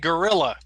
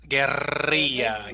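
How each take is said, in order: First: It is said with an American English pronunciation. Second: It is said with a Spanish pronunciation. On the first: The speaker calls it wrong. "Americans don't say guerrilla, they say gorilla" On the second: The speaker calls it right. "can you do that with your tongue?"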